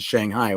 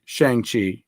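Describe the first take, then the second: First: The second syllable sounds like 'high'. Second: The second syllable sounds like 'chee'. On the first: The speaker calls it wrong. "I was always saying Shanghai when I was a kid" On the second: The speaker calls it right. "I'll go with Shang-Chi. That makes sense"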